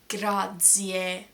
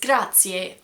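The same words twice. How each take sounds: First: The middle consonant is a buzzing z sound. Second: The middle consonant is a ts sound. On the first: The speaker calls it wrong. "I would never say grazie" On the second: The speaker calls it right. "It's grazie"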